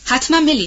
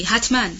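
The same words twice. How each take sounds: First: حتماً pushed out higher and louder, firm; firm assurance. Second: حتماً repeated quieter, settling the promise; softer firm echo. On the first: Scarlett firmly promising the dying Melanie, firm and louder. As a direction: promise it without a doubt. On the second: Scarlett repeating her promise to Melanie, softer firm echo. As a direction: let the second حتماً fall back gently. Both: A narrator's reading. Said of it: "با صدای محکم گفت".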